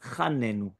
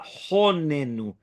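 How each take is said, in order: First: The first vowel is an a sound. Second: The first vowel is an o sound. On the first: The speaker calls it wrong. "not chanenu" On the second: The speaker calls it right. "that's why we do a honenu"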